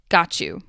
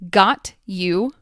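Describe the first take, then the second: First: The T and Y sounds blend into ch. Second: The T and Y sounds are said separately.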